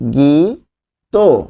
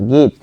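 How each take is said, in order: First: The word ends with an added o vowel. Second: The word ends abruptly on the t sound. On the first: The speaker calls it right. "উচ্চারণ হবে গি তো" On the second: The speaker calls it wrong. "ত থেমে যাচ্ছেন"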